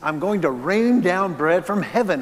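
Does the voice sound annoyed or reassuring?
annoyed. The voice sounds exasperated and annoyed. The provision is given despite frustration with the complainers. "You whiny babies"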